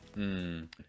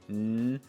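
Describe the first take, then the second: First: The hum is relaxed and placed low. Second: The hum is tense and placed high. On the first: "more relaxed and low" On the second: "a little bit tense and high"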